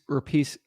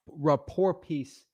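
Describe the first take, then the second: First: Said in the usual way. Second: "rapport piece" drawn out slowly, falling at the end; slow, deliberate. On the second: Shown as a demonstration. Practising his line for the seller, slowly. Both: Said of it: "that's probably what I'd say".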